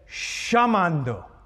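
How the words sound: It has an Argentine accent.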